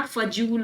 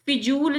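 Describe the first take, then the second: First: फजूल said "fa-jool"; short "a" in the first syllable of फजूल; "fa" opening on फजूल; correct first vowel. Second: फिजूल said "fi-jool"; short "i" in the first syllable of फिजूल; "fi" opening on फिजूल; wrong first vowel. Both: Shown as a demonstration. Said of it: "फिजूल शब्द नहीं होता".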